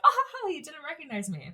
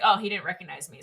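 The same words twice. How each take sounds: First: Higher, delighted retelling of the line; tickled she got away with it; a girl gleeful at going unrecognized. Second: Said in the usual way. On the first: Retold or imitated. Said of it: "she's having a blast 'cause she's like". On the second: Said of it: "she was like".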